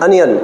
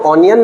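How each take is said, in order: First: The first vowel is a short 'uh' sound. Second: The first vowel is an open 'aw' sound. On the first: The speaker calls it right. "अनियन, क्या बोलोगे?" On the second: The speaker calls it wrong. "इसको ऑनियन ना बोल करके"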